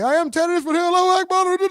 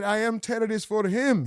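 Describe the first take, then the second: First: Raised, higher mock yell of the fighter; hammed-up radical yelling. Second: Said in the usual way. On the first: Streamer mimicking the fighter's outburst, mock yell. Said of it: "he yelling and said". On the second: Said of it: "I know he said".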